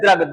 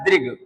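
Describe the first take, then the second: First: The first syllable is said as 'dra'. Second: The first syllable is said as 'dri'. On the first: The speaker calls it wrong. "जैसे हम लोग कहते हैं द्रग, द्रग नहीं" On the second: The speaker calls it right. "शब्द होता है दृग। दा में नीचे री की मात्रा"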